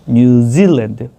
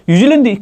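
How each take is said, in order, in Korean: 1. 이 이름은 영어 원어민 억양으로 말해요. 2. 이 이름은 한국어 억양으로 말해요. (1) "그 키위라는 친구들이 no no no no 뉴질랜드" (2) "I like 뉴질랜드 이러면"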